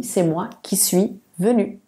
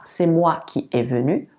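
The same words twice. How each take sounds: First: "suis" said as SWEE; corrected form. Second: "est" said as a single E vowel; faulty example, "qui est" run together as ki-E; incorrect form. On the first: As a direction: model "qui suis" with a clear SWEE. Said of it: "on dit". (forme correcte, « suis » bien articulé) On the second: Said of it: "on ne dit pas". (forme fautive, « est » prononcé È) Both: Shown as a demonstration.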